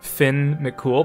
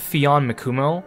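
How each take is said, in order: First: The first name has one syllable, Finn. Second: The first name has two syllables, Fee-on. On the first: The speaker calls it right. "that's actually closer to how you're actually supposed to pronounce it" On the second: The speaker calls it wrong. "I keep calling him Fion Mikumo"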